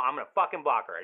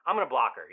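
First: "fucking" punched angrily; stress on FUCKING. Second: Loud, fired-up declaration; indignant vow. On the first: Friend vowing loyalty after the breakup, FUCKING stressed. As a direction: lean hard on "fucking" in an indignant vow. Same vow repeated with more force. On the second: Friend taking his buddy's side against the ex, indignant. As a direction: announce it angrily. Angry vow, first take. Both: Acted.

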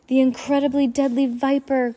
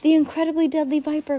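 First: Higher, louder fake cry of alarm; mock alarmed cry. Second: Quick, higher answer; prompt answer. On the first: Klaus pretending to warn the adults, alarmed cry. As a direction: cry out as if terrified, but it's an act. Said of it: "Klaus cried". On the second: Klaus answering Mister Poe promptly, quick. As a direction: fire the name back at once. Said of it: "Klaus answered promptly". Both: A narrator's reading.

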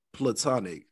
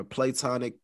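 First: PLATONIC said "pluh-TON-ik"; first-syllable schwa. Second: PLATONIC said "play-TON-ik"; long-A variant. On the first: Host unsure how to say the word, platonic as "pluh-TON-ik". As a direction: open platonic with a short, unstressed "pluh". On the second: Host trying another way to say it, platonic as "play-TON-ik". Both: Shown as a demonstration. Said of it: "however you say it".

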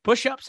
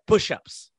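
First: "Push-ups" pitched high with a questioning rise; high, rising echo on "Push-ups"; retold puzzled question. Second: "Push-ups" as a short order; retold curt command. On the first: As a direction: ask "Push-ups" back in disbelief. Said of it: "I looked and I said". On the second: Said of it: "he just said".

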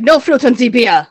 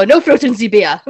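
First: Put-on louder, firm Austrian accent. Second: Put-on loud, stern Austrian accent. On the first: Austrian man refusing fruit in beer, stern Austrian accent. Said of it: "He's like". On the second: Speaker quoting Austrian friend while drinking, stern Austrian accent. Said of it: "I always go".

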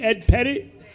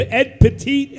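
First: "Pettit" said PET-it, stress on the first syllable; "Pettit" with short e, PET-it; corrected surname. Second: "Petit" said pə-TEET, stress on the second syllable; "Petit" as French-sounding pə-TEET; mispronounced surname. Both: Real, not acted. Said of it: "P E T T I T".

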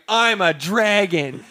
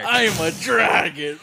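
First: Slow, high mock dragon voice; hammed-up dragon line. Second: Slow, higher mock dragon voice. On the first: First take of the line. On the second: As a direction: ham up a dragon. Repeating the dragon bit.

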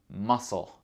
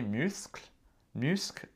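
First: Muscle said massle, C silent; model pronunciation. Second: Muscle said the French way, myskl; French pronunciation. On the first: Teacher models Muscle for learners to repeat. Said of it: "répétez après moi". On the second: Teacher contrasts muscle in French. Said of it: "le même mot en français". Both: Shown as a demonstration.

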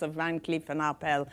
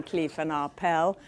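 First: Put-on Van Cleef and Arpels with a light French accent. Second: Said in the usual way. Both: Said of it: "in wonderful French accent".

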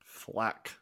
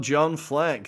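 First: Hushed, badly faked Scottish accent; terrible Scottish accent. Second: Said in the usual way. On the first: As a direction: say it softly in a mock Scottish accent. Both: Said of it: "I apologise for that terrible Scottish accent".

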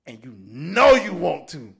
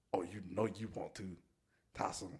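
First: Loud teasing. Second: Soft, low, teasing murmur; sultry coaxing. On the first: Friend pushing Tyson to drink, loud booming tease. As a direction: belt the temptation out. Repeats the tempting line loudly. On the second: Friend coaxing Tyson to drink, soft teasing murmur. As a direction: coax him softly like a tempter. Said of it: "he was like". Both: Retold or imitated.

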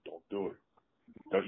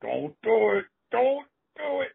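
First: Hushed warning through still lips; lips not moving. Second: High-pitched escalating plea; mounting alarm. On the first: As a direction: mutter it very softly, lips barely moving. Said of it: "you can't see my lips move". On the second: Wrestler begging opponent not to hit, high mock panic. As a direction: climb higher with each desperate warning. Warning escalates before the blow. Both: Retold or imitated.

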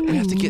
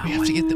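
First: Breathy ASMR whisper. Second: Said in the usual way. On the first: Acted. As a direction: whisper it close to the mic. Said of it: "ear mics".

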